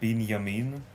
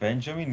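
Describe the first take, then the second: First: The name is said in its Hebrew form. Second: The name is said in its English form. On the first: The speaker calls it right. "it's more Binyamin" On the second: The speaker calls it wrong. "not Benjamin"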